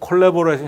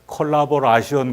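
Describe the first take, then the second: First: The word has the 're-i' vowel sounds. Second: The word has 'ra-shi-on' sounds instead.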